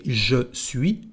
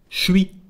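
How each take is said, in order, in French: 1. La voyelle de je est entièrement prononcée. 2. La voyelle de je est élidée et contractée. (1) "no se dice je suis" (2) "tenemos una contracción"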